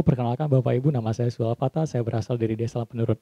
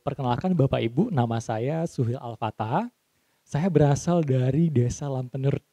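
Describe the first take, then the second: First: Low, monotone run from "Perkenalkan" to "Lampenerut"; flat intonation. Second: Slow, spaced-out phrases with a rising and falling tune; engaging intonation. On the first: Trainer showing a sleep-inducing introduction, flat monotone. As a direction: drone "nama saya" and "berasal dari" without emphasis. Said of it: "Itu orang udah ngantuk di belakang". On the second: Trainer modelling a self-introduction, slow varied intonation. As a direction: stretch "nama saya" and "berasal dari Desa Lampenerut" with melody. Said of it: "intonasinya itu seperti ini".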